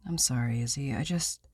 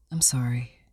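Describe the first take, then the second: First: Said in the usual way. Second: Husband whispers sorry to his wife, ashamed; whispered apology. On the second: Acted.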